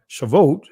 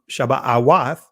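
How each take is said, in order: First: It has a v sound, as Shavuot. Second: It has a b sound, as Shabbat Awath. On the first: This is how many people say it today. "some of you guys may say uh, Shavuot" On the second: This is the ancient form of the name. "the ancient pronunciation is Shabbat Awath"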